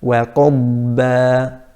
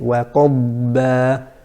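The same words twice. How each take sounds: The two takes are said the same way.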